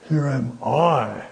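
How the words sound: The stress is on I.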